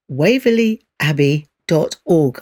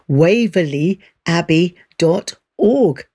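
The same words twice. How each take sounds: First: It is said at a normal speed. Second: It is said slowly.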